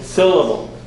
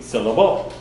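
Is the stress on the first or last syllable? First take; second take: first; last. First: The stress is on the first syllable. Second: The stress is on the last syllable. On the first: "the emphasis goes on the first syllable" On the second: "The emphasis would go on the end"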